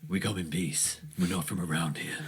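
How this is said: It is said in a put-on Primordial voice.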